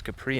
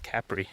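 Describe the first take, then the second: First: "Capri" said ca-PREE, stress on the second syllable; "Capri" with a weak first syllable and a long stressed PREE; Capri stressed on the end. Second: "Capri" said CAP-ri, stress on the first syllable; "Capri" with a strong CAP and a short, light ri. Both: Real, not acted. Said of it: "I was pronouncing it wrong earlier".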